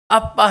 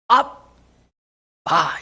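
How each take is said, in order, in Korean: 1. 일상적인 한국어 단어처럼 발음해요. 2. 원래 아람어 단어처럼 발음해요. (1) "여기서 아빠라는 것은 아빠 하지만도" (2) "원어가 아람어로 아빠 이렇습니다"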